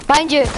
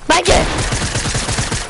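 First: High, loud sharp warning; warning shout. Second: Slow, stretched, breathy cry of warning; drawn-out warning. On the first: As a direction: snap it out fast to warn him. Warning teammate of enemy. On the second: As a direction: drag the warning out in panic. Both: Real, not acted.

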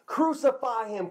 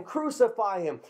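First: High-pitched mock crowd yell, first cry. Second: Lighter repeat of the crowd chant, less high; crowd yelling, echo. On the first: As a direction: call it out high like an angry crowd. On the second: Retold or imitated. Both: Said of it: "They yelled out".

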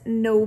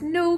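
First: Said in the usual way. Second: High, louder cry of no; a boy crying out no; mock boy's cry; cried out. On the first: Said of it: "The bit that the boy said is this". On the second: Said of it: "cried the boy".

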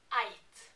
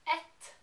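First: Eit with an ei diphthong; western eit. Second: Et with a short flat e; eastern et. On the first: A Norwegian showing the western dialect, eit as ayt. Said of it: "they would say eit". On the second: A Norwegian showing her own eastern word, et with a short e. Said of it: "when I would say et". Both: Shown as a demonstration.

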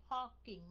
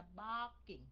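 First: PARKING with a puffed P instead of B; âm P sai. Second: BARKING with a voiced B, no puff; âm B đúng. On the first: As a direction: demonstrate the wrong P in PARKING. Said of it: "không phải là parking". (đọc sai thành "parking" bật hơi) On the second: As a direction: model the B in BARKING. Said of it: "mà là barking". (đọc "barking" với âm B rõ) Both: Shown as a demonstration.

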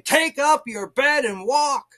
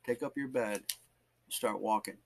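First: High, loud and slow command; commanding proclamation. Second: Soft, lowered command; hushed exhortation. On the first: Preacher voicing Jesus's command to get up, loud and commanding. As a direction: proclaim it with force. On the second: Preacher repeating the scripture God showed him, hushed and solemn. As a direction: say it quietly and solemnly. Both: Retold or imitated.

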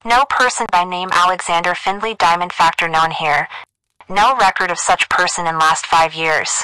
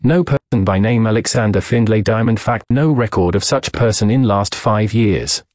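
First: High, filtered telephone dictation; girl over the wire. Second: Said in the usual way. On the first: A narrator's reading. Operator dictates a cablegram to the doctor, high telephone voice. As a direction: telegraph operator reading out through a phone line. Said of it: "A girl's voice announced over the wire". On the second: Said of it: "as I read him the cablegram".

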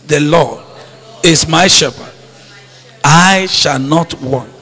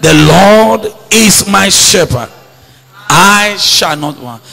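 First: Soft, low, said to yourself; a private, settled declaration; quiet self-affirmation. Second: Slow, firm declaration of faith; said like you mean it. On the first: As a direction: murmur it as a promise to yourself. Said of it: "Say that to yourself". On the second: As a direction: say it till your heart settles. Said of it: "Say it until your heart is settled on that". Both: Shown as a demonstration.

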